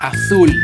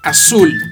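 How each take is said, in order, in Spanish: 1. La z se dice como th. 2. La z se dice como una s. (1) "la mayor parte de España produce esa letra interdental" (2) "La Z tiene fuerza de doble S en toda Hispanoamérica y en parte de España"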